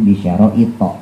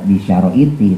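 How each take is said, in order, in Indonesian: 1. Kata ini berakhir dengan vokal 'a'. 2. Kata ini berakhir dengan vokal 'i'. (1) "tapi bisyara'ita ya" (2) "dia nggak bisa dibaca bisyara'iti"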